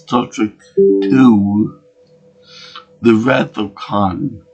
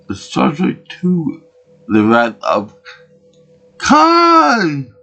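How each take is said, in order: First: It is said in his own plain voice. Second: It is said in a Captain Kirk impression.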